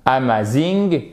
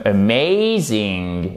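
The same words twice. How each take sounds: First: AMAZING with a French accent, evenly stressed A-MA-ZING. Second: AMAZING with a schwa, then a long stressed MAY; AMAZING slowly, leaning on the second syllable. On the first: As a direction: say AMAZING as French syllables, no diphthong. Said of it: "ça ne va pas le faire". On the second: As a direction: stretch the diphthong in a-MAY-zing. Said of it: "c'est celle qui est accentuée". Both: Shown as a demonstration.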